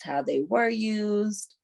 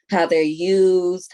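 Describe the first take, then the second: First: "were" lifted higher and drawn out; slow "how they were used", pitch raised on "were"; past-versus-present contrast. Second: "used" stretched slowly and firmly; slow, weighty "how they're used", leaning on "used"; present-versus-past contrast. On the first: Past use against present use. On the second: Present use against past use. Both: Real, not acted.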